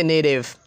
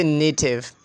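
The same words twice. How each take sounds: First: American "native", T softened to a D; "native" with an American flapped T; American pronunciation. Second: British "native" with a true T; "native" the British way, T sounded; British pronunciation. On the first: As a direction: say "native" like "nay-div". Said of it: "but Americans say native". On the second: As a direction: keep a crisp T in "native". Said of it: "British people say native". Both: Shown as a demonstration.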